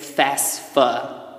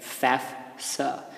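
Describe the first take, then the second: First: The S sound comes before the second F. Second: The S sound comes after the second F. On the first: The speaker calls it wrong. "Don't say FAFSA. Sometimes people say FAFSA, but they're mixing up the letters there" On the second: The speaker calls it right. "It's F A F S A, FAFSA"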